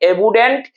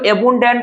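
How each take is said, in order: First: The n sound before the d is silent. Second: The n sound before the d is pronounced. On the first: The speaker calls it right. "इसमें जो है कि एन हमारा silent होता है" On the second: The speaker calls it wrong. "इसको एबुंडेंट नहीं पढ़ते हैं"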